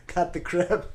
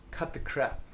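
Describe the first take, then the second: First: Playful emphatic repeat; punchy laughing motto. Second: A quiet dry first take; flat first statement. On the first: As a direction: Cut hit hard, crap rising, brighter. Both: Shown as a demonstration. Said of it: "one of my main philosophical ideas".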